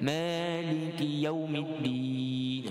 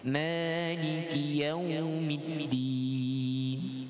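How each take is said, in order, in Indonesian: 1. Vokal 'yau' sama sekali tidak dibaca panjang. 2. Vokal 'yau' dibaca agak panjang. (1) "Contoh tak ada" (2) "tapi taklah panjang sangat ni"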